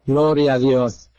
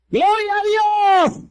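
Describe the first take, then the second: First: Very low-pitched, reverent praise; subdued praise. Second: High, drawn-out cry of praise; exultant praise cry. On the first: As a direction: praise God deep down in your register. Low praise after retold surrender. (alabanza contenida, en tono muy grave) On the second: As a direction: cry out glory, stretched and soaring. (grito de alabanza, agudo y prolongado) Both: Real, not acted.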